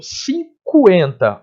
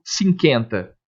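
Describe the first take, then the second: First: "cinquenta" com o U bem audível, cu-en; U sonoro pronunciado. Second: "cinquenta" sem o som do U, como "cinkenta"; U mudo, pronúncia errada. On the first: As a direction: destaque o som de U em "cinquenta". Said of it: "porque eu pronuncio". (diga "cinquenta" silabado, soando o U depois do K) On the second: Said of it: "Eu não falo cinquenta". (diga "cinquenta" rimando com "quenta" de "esquenta") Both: Shown as a demonstration.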